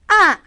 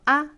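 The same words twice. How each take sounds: First: The pitch falls sharply from high to low. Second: It is said lightly, without its own pitch contour. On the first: "확 떨어져요" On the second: "가볍게 발음하시면 됩니다"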